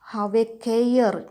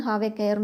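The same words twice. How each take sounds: First: Slow and louder, warning the villains; mild mock shout. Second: Said in the usual way. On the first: Boy warning the bandits to keep away, slow loud shout. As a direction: draw out "Have a care" loud and slow like a threat. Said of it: "I will shout". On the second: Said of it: "Here, children, "have a care" means".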